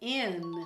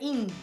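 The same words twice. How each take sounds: First: The vowel is a short, relaxed i sound. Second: The vowel is a long, tense ee sound. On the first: The speaker calls it right. "mas eu falei in" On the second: The speaker calls it wrong. "eu não falei in"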